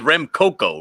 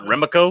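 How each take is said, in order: First: The name is said with three syllables. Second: The name is said with two syllables. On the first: The speaker calls it right. "It is Rem Coco, right?" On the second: The speaker calls it wrong. "Not Remco"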